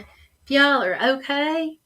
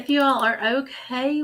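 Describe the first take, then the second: First: It is said in a Southern accent. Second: It is said in a neutral accent.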